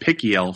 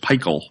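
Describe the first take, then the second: First: The name does not rhyme with Michael. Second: The name rhymes with Michael. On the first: The speaker calls it wrong. "I was saying Pickiel for a long time" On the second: The speaker calls it right. "so it's Peichel. Like Michael"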